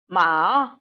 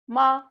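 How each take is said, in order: First: The pitch dips low, then rises. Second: The pitch stays high and level. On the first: "tone three is low dipping" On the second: "tone one is high level tone"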